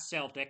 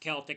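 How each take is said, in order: First: The word begins with a soft S sound. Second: The word begins with a hard K sound. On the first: The speaker calls it wrong. "not Celtic" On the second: The speaker calls it right. "It's a hard C"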